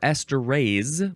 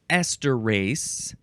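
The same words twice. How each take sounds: First: The final syllable has a buzzing Z sound. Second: The final syllable has a hissing S sound. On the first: "or a Z sound" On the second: "with an S"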